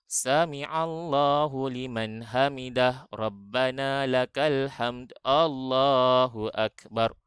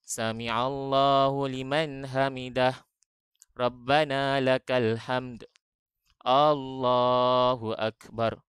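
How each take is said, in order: First: It is recited quickly, with no pause between phrases. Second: It is recited slowly, with a brief still pause. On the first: The worshipper rushes without resting in the position. The speaker calls it wrong. "Tak ada tomak ninahnya. Ya, nak laju aja" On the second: The worshipper rests calmly in the position. The speaker calls it right. "Jawapannya adalah satu. Itulah yang dinamakan sebagai tomak ninah"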